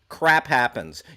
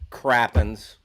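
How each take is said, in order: First: It is said as two separate full words. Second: It is blended into one shortened word.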